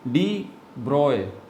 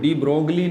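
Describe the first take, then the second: First: The surname is said without a g sound. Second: The surname is said with a g sound. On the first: The speaker calls it right. "ये डी ब्रॉय है" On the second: The speaker calls it wrong. "कुछ गलत pronounce करते हैं"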